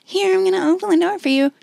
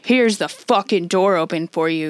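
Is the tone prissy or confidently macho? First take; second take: prissy; confidently macho. First: It sounds prissy and fussy. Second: It sounds swaggering and confidently macho.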